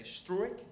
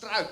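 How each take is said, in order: First: "Struik" with U and I as two vowels; "Struik" read the English way, two separate vowels; English-style pronunciation. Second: "struik" with UI as one gliding vowel; one-syllable Dutch "struik", UI run together; Dutch pronunciation. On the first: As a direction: say "Struik" like STROO-ik, as English speakers would. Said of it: "for an English speaker, it's very natural". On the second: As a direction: say "struik" the Dutch way, rhyming roughly with "strike" or "stroke-out". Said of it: "U I is just one vowel combination". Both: Shown as a demonstration.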